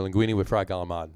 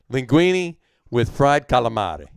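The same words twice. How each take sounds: First: "galamad" with a hard G and no final vowel; "galamad", G for C and last syllable cut to "mahd"; Brooklyn Italian pronunciation. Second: "calamari" slowly, with K and the final vowel kept; slow, deliberate "calamari", every syllable sounded; corrected pronunciation. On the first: Real, not acted. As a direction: say "galamad" Brooklyn-style, ending on D. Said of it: "I went with the Brooklyn pronunciation of it". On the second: Shown as a demonstration. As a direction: carefully correct "calamari" to kah-lah-MAH-ree. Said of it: "Is that better?".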